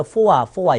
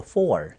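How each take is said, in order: First: Four as "fo-wa", louder; wrong four with an "ah" instead of r; r-less mispronunciation. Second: Four with a full final r, "for"; correct r-coloured four. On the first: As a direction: say four as two syllables, "포와". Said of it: "이렇게 발음하시는 분도 있지만". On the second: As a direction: round off four with an American r. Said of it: "포라고 발음 똑같아요". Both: Shown as a demonstration.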